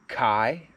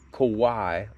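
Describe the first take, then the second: First: The word is said like 'Kai'. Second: The word is said like 'Kawhi'. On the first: "I've heard it called Kai" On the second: "like Kawhi Leonard, which I'm pretty sure that's not right"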